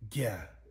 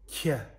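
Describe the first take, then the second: First: The consonant is slack-voiced, with a breathy murmur. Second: The consonant is aspirated, with a puff of breath. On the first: "the slack voice" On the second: "the aspirated"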